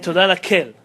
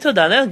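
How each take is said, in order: First: The word for God begins with a K sound. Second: The word for God begins with a vowel. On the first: The speaker calls it wrong. "who's kel? You can't say kel" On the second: The speaker calls it right. "Say Todah la'el"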